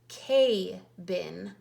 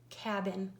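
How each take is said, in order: First: The first vowel is a long A. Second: The first vowel is a short A. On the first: The speaker calls it wrong. "this would say K-bin" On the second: The speaker calls it right. "The A is making its short vowel sound"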